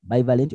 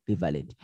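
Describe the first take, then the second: First: "Bivalent" with first syllable as "bye"; long i opening "Bivalent", like "buy"; first pronunciation variant. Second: "bivalent" with first syllable as "bee"; pure ee sound opening "bivalent"; alternative pronunciation. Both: Shown as a demonstration. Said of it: "how do you pronounce that".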